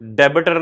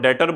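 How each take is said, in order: First: The word is said with a b sound. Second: The word is said with no b sound. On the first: The speaker calls it wrong. "डेबिटर नहीं बोलना" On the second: The speaker calls it right. "इसको डेटर बोलना है"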